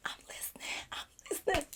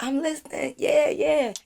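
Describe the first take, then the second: First: Breathy whispered reply, barely voiced. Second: Said in the usual way. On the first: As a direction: whisper it like you don't want to interrupt. Whispered reply while he raps.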